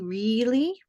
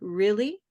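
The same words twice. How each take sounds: First: The first vowel is a long 'ee' sound. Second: The first vowel is a short 'ih' sound. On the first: "It could be E" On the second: "It could be ri I"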